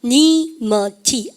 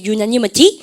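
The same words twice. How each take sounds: First: "유너니머티" very slowly, broken into syllables; "유너니머티" stretched out for learners to follow; syllable-by-syllable pronunciation. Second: Said in the usual way. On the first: Shown as a demonstration. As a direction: model "유너니머티" slowly, one piece at a time. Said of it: "발음할까요". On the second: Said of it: "발음을 갖다 합시다".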